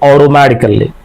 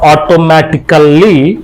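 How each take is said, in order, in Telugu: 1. మధ్య హల్లు మృదువైన 'd' ధ్వనిలా ఉంటుంది. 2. మధ్య హల్లు స్పష్టమైన 't' ధ్వని. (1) "they'll say" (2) "Instead of"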